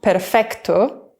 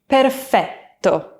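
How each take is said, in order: First: A k sound comes before the t. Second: There is no k, and the t is long. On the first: The speaker calls it wrong. "it's not perfetto" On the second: The speaker calls it right. "with a nice long double T"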